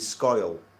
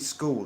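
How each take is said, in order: First: The vowel sounds like the oy in oil. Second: The vowel is a plain oo sound. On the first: "It's oil. ... it'd be scoil" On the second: "it won't be school"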